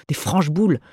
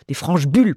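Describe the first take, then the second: First: "boules" said as bool, round vowel ou. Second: "bulles" with the front u vowel, slightly louder; bulles pun. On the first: Mistress corrects the word, "boules" with ou. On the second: Mistress mocks the dog's pun, "bulles" with u. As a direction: swap in "bulles", tight u. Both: Retold or imitated. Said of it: "Ce chien fait des calembours".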